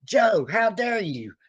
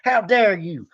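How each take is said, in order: First: Slow, higher, theatrical indignation; drawn-out mock outrage. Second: Higher, quick mock outrage. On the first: Fan scolding [name] for not liking [name], slow theatrical indignation. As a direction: stretch each word like a wounded diva. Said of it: "or I say". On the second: Fan scolding [name] for not liking [name], quick mock outrage. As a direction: snap it like a betrayed fan. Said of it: "I look over at [name] and I'm like".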